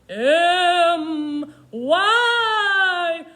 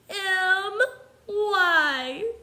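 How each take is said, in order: First: It is said in a spooky ghost voice. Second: It is said in a sad baby voice. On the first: "Let's spell it like spooky ghosts" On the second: "Let's try spelling it like a sad baby"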